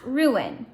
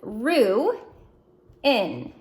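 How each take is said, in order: First: The two syllables run together quickly. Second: The two syllables are separated by a pause. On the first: "Say it fast" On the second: "we're going to divide it down the middle"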